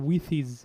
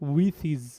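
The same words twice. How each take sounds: First: The two words are run together smoothly. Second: The same.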